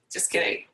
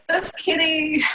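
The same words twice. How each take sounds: First: Soft, voiceless joking whisper; hushed jokey retraction; whispered aside. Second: High-pitched, voiced joking take-back; light, higher-pitched jokey retraction; playful singsong. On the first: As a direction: whisper it as a playful take-back. Joking aside after wedding question. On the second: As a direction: say it aloud, pitched up and teasing. Repeats the joke aloud. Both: Real, not acted.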